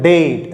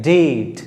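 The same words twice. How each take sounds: First: डेट with a hard Hindi retroflex d, said quickly; wrong hard pronunciation. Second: डेट drawn out with a softened English d; soft-d pronunciation. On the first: Teacher imitates students' mistake, hard-d pronunciation of डेट. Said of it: "ऐसे नहीं". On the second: Teacher corrects the students, soft slow pronunciation of डेट. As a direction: ease into डेट, soft d, long vowel. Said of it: "soft करके". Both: Shown as a demonstration.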